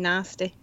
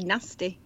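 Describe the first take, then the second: First: The A vowel is drawn out long. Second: The A vowel is short. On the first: "So I just elongate that A" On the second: "normally I'd say nasty"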